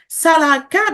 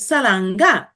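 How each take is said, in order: First: The last syllable begins with a k sound. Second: The last syllable begins with an ng sound. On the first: "with a ka or a nga" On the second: "with a ka or a nga"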